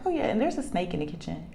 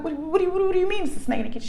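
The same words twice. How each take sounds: First: Quick, offhand afterthought; imitating a daughter who mentions it casually; calm daughter. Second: High, rapid, stammering question; retold flustered demand for an explanation; startled disbelief. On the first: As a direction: toss it out unbothered. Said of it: "she's so calm". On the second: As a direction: blurt it out fast and high in disbelief. Mother retelling her startled reaction.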